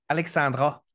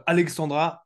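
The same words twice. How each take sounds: First: Attempted Quebec French accent; lightly imitated Quebec accent. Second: Said in the usual way. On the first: Shown as a demonstration. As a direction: try the name Alexandra in a Québécois accent. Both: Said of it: "je vais essayer de le faire avec l'accent du Québec".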